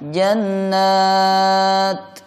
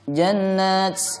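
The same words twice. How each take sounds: First: The final t is released without any hiss. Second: The final t is released with a hissing sound. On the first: The speaker calls it right. "Cara bacanya jannat" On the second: The speaker calls it wrong. "tidak boleh dibaca dengan bunyi desisan ... ini tidak boleh"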